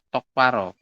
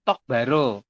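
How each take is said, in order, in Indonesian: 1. Konsonan setelah 'tok' itu tegang. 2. Konsonan setelah 'tok' itu biasa. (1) "bacanya adalah tok paro" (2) "Tulisannya tok baro"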